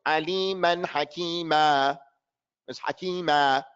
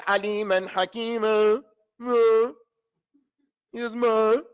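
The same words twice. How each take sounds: First: Slow recitation, "Hakima" with a full final a; correct ending. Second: "Hakima" with the last vowel swallowed into "muh"; careless reader's ending. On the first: Shown as a demonstration. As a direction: give "Hakima" its whole last vowel. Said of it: "the words". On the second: Retold or imitated. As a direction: imitate a reader dropping the end of "Hakima". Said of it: "So that reader says".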